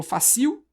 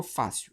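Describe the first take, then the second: First: Fácil as fa-CIL, wrongly stressed, questioning; fácil with weight on its final syllable; stress on last syllable. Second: Fácil as FÁ-cil; fácil with a weak final syllable; stress on first syllable. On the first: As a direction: hit the CIL at the end of fácil. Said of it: "Eu falo fácil". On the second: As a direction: lean on the A in fácil. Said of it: "a força está aqui no A". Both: Shown as a demonstration.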